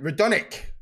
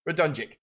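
First: The J sound is left out of the name. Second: The J sound is pronounced in the name.

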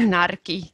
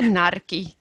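First: The word has a rolled R. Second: The word has a rolled R.

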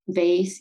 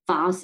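First: Vase is said with an American pronunciation. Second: Vase is said with a British pronunciation. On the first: "instead of vase" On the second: "sounds a bit more British, like the vase"

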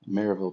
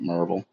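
First: It is said with an outsider's pronunciation. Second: It is said with the local Tennessee pronunciation.

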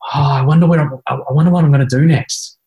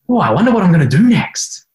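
First: The tone sounds anxious and deflated. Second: The tone sounds light and curious. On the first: The speaker dreads what comes next. The speaker calls it wrong. "it'll still head you in a disempowering direction" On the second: The speaker is eager to find out what comes next. The speaker calls it right. "Exactly the same language, different tonality"

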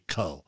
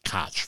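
First: The name ends with a vowel sound. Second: The name ends with a consonant sound. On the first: The speaker calls it right. "but it's actually Co" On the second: The speaker calls it wrong. "I used to always pronounce it Koch"

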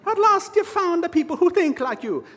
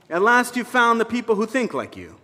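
First: It is spoken in a put-on Irish accent. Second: It is spoken in the speaker's normal accent.

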